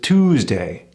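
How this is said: The oo vowel is drawn out and elongated. "the American ooh"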